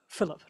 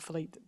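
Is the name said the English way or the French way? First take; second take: English; French. First: The name is said with an English pronunciation. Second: The name is said with a French pronunciation. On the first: The speaker calls it right. "Philip, not Philippe" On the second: The speaker calls it wrong. "I've got a French person"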